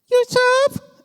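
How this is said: It is said in a shrill, thin voice.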